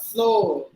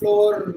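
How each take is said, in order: First: The final R is left silent. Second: The final R is pronounced. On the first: The speaker calls it right. "any word ends with the letter R, it is always silent" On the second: The speaker calls it wrong. "Not floor"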